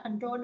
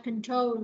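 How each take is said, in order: First: "control" as con-TRON, ending in N; "control" mispronounced with an N ending; wrong final N. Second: "control" as kun-TROHL, ending in L; "control" with stressed TROL and no final N; final L sound. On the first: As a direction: mimic the mistake, "control" with N for final L. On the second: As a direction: end "control" on an L, not an N. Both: Shown as a demonstration. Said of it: "chứ không phải là control đâu".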